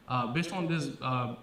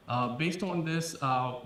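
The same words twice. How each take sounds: The two takes are said the same way.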